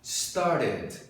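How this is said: The middle T is a soft R-like tap. "Para os americanos, o som é de R"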